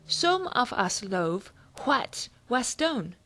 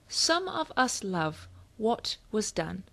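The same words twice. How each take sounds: First: Each vowel is pronounced full and distinct. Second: The vowels are reduced to a quick uh. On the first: The speaker calls it wrong. "saying it the old way" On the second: The speaker calls it right. "when you schwa the vowels"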